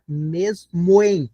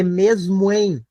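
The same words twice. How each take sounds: First: "mesmo em" very slowly as "mes", then "moem"; syllable-by-syllable elision. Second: Slow "mesmo em", linked without a gap; vowels run together. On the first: Teacher breaking down the verse, syllable by syllable. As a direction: split "mesmo em" into two beats, "mes" and "moem". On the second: Teacher scanning the third verse, vowels run together. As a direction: link "mesmo em" so it ends in "moem". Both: Shown as a demonstration. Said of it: "o moem pronuncia numa sílaba só".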